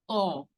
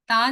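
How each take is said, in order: First: The letter is said heavy, with a rounded 'o' sound. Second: The letter is said light, with an open 'a' sound. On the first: The speaker calls it right. "इसको heavy pronounce करना है" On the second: The speaker calls it wrong. "ता नहीं"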